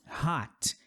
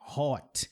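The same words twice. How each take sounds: First: The vowel is open, not rounded. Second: The vowel is a rounded O sound. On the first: The speaker calls it right. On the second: The speaker calls it wrong.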